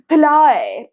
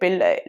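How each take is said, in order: First: It is said in a put-on Western accent. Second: It is said in a plain Indian accent. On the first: The speaker calls it wrong. "she put on this fake accent" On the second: The speaker calls it right. "Just say pilai"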